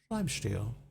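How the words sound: It is said in a heavy British accent.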